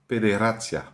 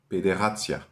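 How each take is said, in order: First: The R is rolled with the tongue tip. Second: The R is made in the throat. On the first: The speaker calls it right. "devient un R espagnol" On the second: The speaker calls it wrong. "Et non pas"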